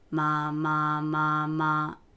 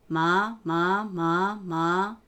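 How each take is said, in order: First: The pitch stays low and steady. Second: The pitch rises from low to higher. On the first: "三声、" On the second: "二声、"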